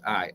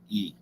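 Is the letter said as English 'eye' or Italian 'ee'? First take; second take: English 'eye'; Italian 'ee'. First: The letter is said like 'eye'. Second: The letter is said like 'ee'.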